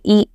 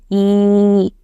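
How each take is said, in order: First: The vowel is said short and quick. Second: The vowel is said long and drawn out. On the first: "but we were reading quickly" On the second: "we will drag and read"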